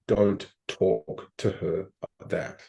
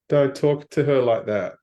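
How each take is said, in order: First: The voice sounds soft and unassertive. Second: The voice sounds firm and assertive. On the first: "not firm"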